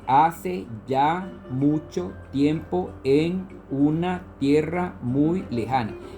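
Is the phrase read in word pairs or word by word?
word by word. Each word is read separately, one at a time. "lo estoy haciendo palabra por palabra"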